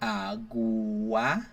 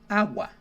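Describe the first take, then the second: First: The two vowels are pronounced as separate syllables. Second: The two vowels glide together into one syllable. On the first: The speaker calls it wrong. "Instead of saying" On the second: The speaker calls it right. "you say agua"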